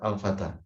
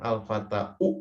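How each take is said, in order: First: The word ends on a plain long 'a'. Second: The word ends with an added 'u' vowel. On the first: The speaker calls it right. "tetap al-fata" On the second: The speaker calls it wrong. "Tapi tidak sampai dibaca betul-betul dhammah"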